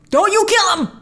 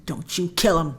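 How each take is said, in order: First: Higher, louder plea; pleading imitation of the trailer line. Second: Said in the usual way. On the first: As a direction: beg them not to kill him. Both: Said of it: "jumping down from the beginning of the trailer".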